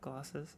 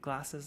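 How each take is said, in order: First: The word is said without a Midlands accent. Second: The word is said with a Midlands accent. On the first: "instead of" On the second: "what are the other ones like glasses"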